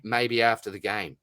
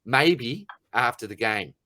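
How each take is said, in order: First: Said in the usual way. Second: Slow repeat leaning on "Maybe"; stress on MAYBE. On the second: Retold or imitated. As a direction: draw out and punch "Maybe", then fall away on "after the game". Repeats the brush-off in disbelief.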